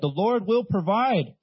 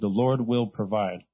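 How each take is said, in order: First: It is said forcefully, with gusto. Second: It is said calmly, without much energy.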